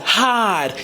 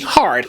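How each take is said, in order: First: The word is said without the R sound. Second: The word is said with the R sound. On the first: "She took the R off of hard to make it rhyme with God" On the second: "But we know the word is hard, right?"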